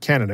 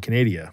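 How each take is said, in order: First: The word is pronounced in the ordinary way. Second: The word is pronounced in a distorted, mocking way. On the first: The speaker calls it right. "I have to make sure I'm saying it right" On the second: The speaker calls it wrong. "I'd tease and say Canada"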